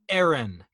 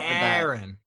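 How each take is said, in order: First: It is said as the female name Erin. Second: It is said as the male name Aaron. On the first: The name belongs to a woman. "my female pronunciation" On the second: The name belongs to a man. "As opposed to Erin. Which would be a boy"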